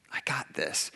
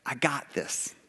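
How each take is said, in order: First: Hushed, soft and low, breathed out; whispered echo of God's reassurance. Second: Said in the usual way. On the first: Retold or imitated. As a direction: breathe it like a calm secret promise. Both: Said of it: "God's like".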